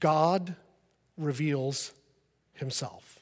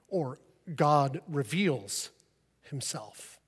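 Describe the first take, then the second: First: The word God is stressed. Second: The word reveals is stressed. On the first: It points to the Father. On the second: It points to the Holy Spirit.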